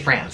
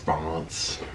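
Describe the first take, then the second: First: It is said the anglicized way. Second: It is said the native French way. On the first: The speaker calls it wrong. "Say France" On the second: The speaker calls it right. "it's France"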